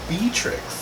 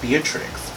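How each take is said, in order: First: The name is said in a cuter-sounding form. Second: The name is said in its plain original form. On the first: This is the new form of the name. "what about Beatrix?" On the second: This is the old form of the name. "I like Beatrix, but I want it to sound more cute"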